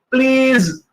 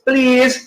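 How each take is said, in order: First: The word ends with a buzzing z sound. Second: The word ends with a hissing s sound. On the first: "Please is more correct" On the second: "that's correct"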